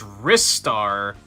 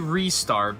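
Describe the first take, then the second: First: The first syllable sounds like 'wrist'. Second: The first syllable sounds like 'ree'. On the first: He uses his wrists to grab things. "Ristar because he uses his wrists to grab things" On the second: It follows a Japanese-style pronunciation. "it would probably be Restar because Japanese pronunciation"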